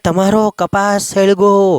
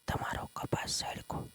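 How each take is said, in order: First: It is said loudly, like a shout. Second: It is said quietly, almost in a whisper. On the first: Urgent news should be shouted out. "જોરથી બોલે" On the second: Such news should be told privately. "ધીમેકથી કહે છે"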